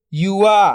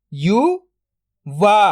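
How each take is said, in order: First: Said in the usual way. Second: "युवा" split into यु, then वा, very slow; drawn-out breakdown of "युवा"; syllable by syllable. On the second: Shown as a demonstration. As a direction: sound out यु ... वा with a long gap. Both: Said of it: "तो मिलके बन जाएगा".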